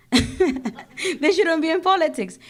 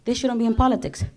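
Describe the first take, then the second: First: Slow, higher and laughing through it. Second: Said in the usual way. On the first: Real, not acted. To the crowd, repeating her jab, laughing. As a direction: laugh it out, amused at her own point.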